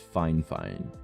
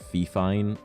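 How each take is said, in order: First: The first syllable sounds like fine. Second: The first syllable sounds like fee. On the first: The speaker calls it right. "It's it's Fine Fine" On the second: The speaker calls it wrong. "everyone calls it like Fee Fine"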